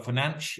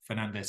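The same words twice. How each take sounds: First: The name is said in a native-style way. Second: The name is said in an English way. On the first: "apparently he pronounces it Bruno Fernandes, which you've never heard an English commentator" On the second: "as we most of us would say"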